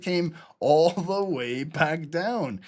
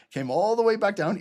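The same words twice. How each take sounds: First: "all the way back down" stretched long and slow; drawn-out emphasis. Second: Said in the usual way. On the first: Real, not acted. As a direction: drag out each word of "all the way back down".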